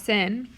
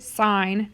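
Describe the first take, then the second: First: The vowel sounds like the one in 'fin'. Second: The vowel sounds like the one in 'fine'. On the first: The speaker calls it wrong. "not sin" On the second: The speaker calls it right. "we still pronounce it sine"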